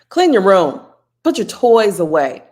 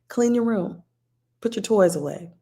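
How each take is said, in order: First: It is said in a firm, authoritative tone. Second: It is said in a warm, gentle tone. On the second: "First time, that was warmly"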